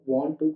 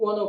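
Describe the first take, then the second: First: Both words are said fully and separately. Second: The words are merged into one reduced word.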